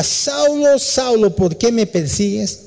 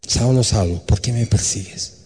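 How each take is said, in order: First: High, ringing call from heaven. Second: Hushed voice of God. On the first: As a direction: call down from the sky, stretching Saulo. Voice from heaven calls Saulo. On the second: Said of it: "y le dice la voz". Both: Acted.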